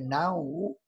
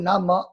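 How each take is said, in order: First: The word is pronounced 'nan wu'. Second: The word is pronounced 'na mo'. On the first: This is the modern Mandarin reading. "现代的普通话读法是南无" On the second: This is the ancient reading. "实际这本就读那么"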